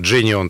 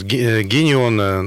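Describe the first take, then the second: First: The name begins with a J sound. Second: The name begins with a hard G sound. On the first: The speaker calls it right. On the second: The speaker calls it wrong.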